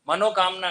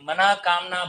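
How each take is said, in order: First: The first part ends in an o sound. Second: The first part ends in a breathy h. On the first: The speaker calls it wrong. "मनोकामना नहीं बोलना है" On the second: The speaker calls it right.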